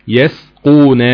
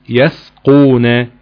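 The two takes are said the same way.

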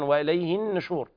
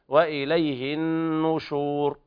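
First: The n is followed by an i vowel. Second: The n is followed by a u vowel. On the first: The speaker calls it wrong. "والبعض يقرأ لحنا وإليه النشور فيكسرون النون" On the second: The speaker calls it right. "النشور بهذه الطريقة"

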